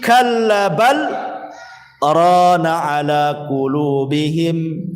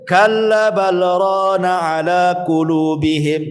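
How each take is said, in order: First: There is a short pause after 'bal'. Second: 'Bal' runs straight into 'rana' without pausing. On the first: "Ada yang berhenti" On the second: "ada juga yang tidak berhenti langsung"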